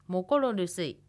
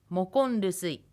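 First: The r of mokor is kept before rusuy. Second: The r of mokor changes to n before rusuy.

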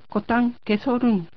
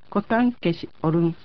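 First: The final s joins the o, giving 'so'. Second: Kes and orun are said as separate words. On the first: "ケシのKES の語尾のS とオルンORUN の語頭のO が一音になってソになります。" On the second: "コタンケシオルンはコタンケソルン"

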